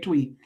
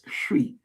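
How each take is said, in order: First: The word begins with a 'tw' sound. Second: The word begins with a 'shw' sound. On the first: The speaker calls it wrong. "I know you want to say Twee" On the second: The speaker calls it right. "but it's Shwi"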